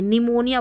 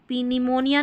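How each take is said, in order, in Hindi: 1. यह शब्द बिना P ध्वनि के शुरू होता है। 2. यह शब्द P ध्वनि से शुरू होता है। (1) "निमोनिया बोलेंगे" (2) "पी निमोनिया नहीं बोलेंगे"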